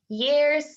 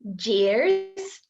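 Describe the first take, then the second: First: The word begins with a Y sound. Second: The word begins with a J sound. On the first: The speaker calls it right. "We want to say" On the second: The speaker calls it wrong. "these ones are incorrect"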